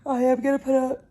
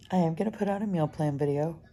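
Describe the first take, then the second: First: Yawning. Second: Said in the usual way. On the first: Real, not acted. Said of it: "the fifth time I have yawned". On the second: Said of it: "Excuse me".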